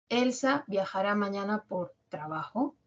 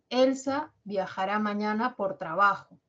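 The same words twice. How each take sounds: First: The voice rises at the end. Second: The voice falls at the end. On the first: It is a yes-no question. "hacerlo ascendente" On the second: It is a statement giving information. "mi entonación se va a caracterizar por tener un tono descendente"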